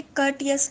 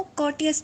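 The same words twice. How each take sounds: First: कर्टियस with a short "ur" in the first syllable; standard pronunciation. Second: कॉटियस with an open "aw" in the first syllable; alternative pronunciation. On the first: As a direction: say कर्टियस as "KUR-tee-us". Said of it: "वैसे कर्टियस लफ्ज़ है". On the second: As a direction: say कॉटियस as "KAW-tee-us". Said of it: "इसको कॉटियस भी पढ़ते हैं". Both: Shown as a demonstration.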